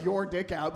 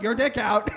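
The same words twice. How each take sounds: First: Said in the usual way. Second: "Your dick out" barked loud on "dick"; reenacting the blurt "Your dick out" loudly; startled shout. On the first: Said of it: "I don't know why I said". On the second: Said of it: "but I was like".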